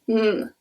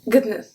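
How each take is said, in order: First: It sounds like a plain n alone. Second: A hard g is heard before the n. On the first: "it's just a N" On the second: "we pronounce the G and then the N"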